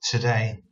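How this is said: It is said as one joined word. The speaker calls it wrong. "I actually pronounced it as one word"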